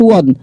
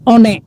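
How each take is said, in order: First: It is said the English way, like won. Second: It is read out letter by letter as spelled. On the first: The speaker calls it right. "bahasa Inggris won" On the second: The speaker calls it wrong. "Nggak ada orang Indonesia nyebutnya one"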